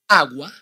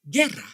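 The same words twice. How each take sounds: First: Agua said with the u as a w, rising; AH-gwah, the u clearly heard; Spanish agua. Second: Guerra said GEH-rra, u silent, falling; hard g straight into e in guerra; Spanish guerra. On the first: Teacher repeating agua for learners, u sounded. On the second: Teacher repeating guerra for learners, u silent. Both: Shown as a demonstration. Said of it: "How do you pronounce these two words".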